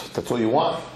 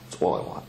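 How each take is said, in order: First: Acted question, WANT rising at the end; surprised question. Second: Much lower, softer reply; low firm answer. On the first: King asks the medicine man about his demands, mildly surprised question. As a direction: ask it lightly, lifting on WANT. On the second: Acted. Medicine man answers the king about his demands, low firm answer. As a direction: settle it quietly with a falling, final tone.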